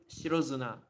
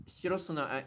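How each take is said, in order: First: "Shiro Zuna" with a buzzing z starting "Zuna"; voiced Z in Zuna. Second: "Shiro Suna" with a hissed s starting "Suna"; unvoiced S in Suna. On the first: Teacher preferring it as it flows easier, Z pronunciation. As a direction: say "Shiro Zuna" as one flowing "shiro-zoo-nah". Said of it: "I would prefer it". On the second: Teacher trying the reading they reject, S pronunciation. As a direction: say "Shiro Suna" with "soo-nah", not "zoo-nah". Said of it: "I'm not satisfied with Suna". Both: Shown as a demonstration.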